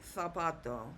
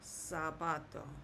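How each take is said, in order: First: The word begins with a th sound. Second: The word begins with an s sound. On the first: "in Spain, the Z will be pronounced like a T H" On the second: "It's always going to sound like S"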